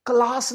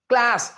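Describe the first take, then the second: First: CLASS as "klaas", long aa; not American. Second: CLASS as "klæs"; American correction. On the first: Teacher rejecting this version, "klaas" क्लास. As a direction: say क्लास higher, with open aa. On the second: Teacher correcting to American, "klæs" क्लास. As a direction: say क्लास with short cat-like a. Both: Shown as a demonstration. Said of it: "क्लास नहीं".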